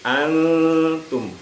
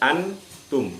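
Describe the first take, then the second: First: The n is blurred into a nasal hum. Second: The n is pronounced fully and clearly. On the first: The speaker calls it right. "dibaca samar" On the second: The speaker calls it wrong. "bukan dibaca antum"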